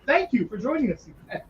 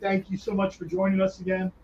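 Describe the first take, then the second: First: It sounds warm and sincere. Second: It sounds casual and not very sincere.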